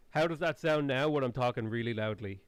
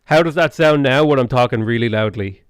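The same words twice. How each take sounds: First: Played back recording. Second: Loud, full-voiced test line; talking really loudly. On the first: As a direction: let the recording play back quietly. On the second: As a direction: push the voice loud to test the gain. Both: Shown as a demonstration.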